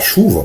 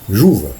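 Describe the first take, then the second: First: The word begins with a 'sh' sound. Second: The word begins with a 'zh' sound. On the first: The speaker calls it right. "tu não aprende a falar chuva" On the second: The speaker calls it wrong. "Ele fala juva"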